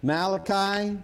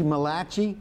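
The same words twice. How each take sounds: First: Said in the usual way. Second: Malachi said muh-LAH-chee, Jersey Italian style; Malachi as muh-LAH-chee with a Jersey twist; Jersey accent. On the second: Shown as a demonstration. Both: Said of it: "or as they'd say in Jersey".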